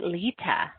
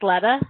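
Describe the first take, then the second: First: The first vowel is a long e sound. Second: The first vowel is a short e sound. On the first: The speaker calls it right. "Long E" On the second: The speaker calls it wrong. "I think I'm pronouncing that right"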